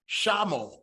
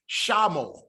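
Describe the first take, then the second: No difference in how they are said.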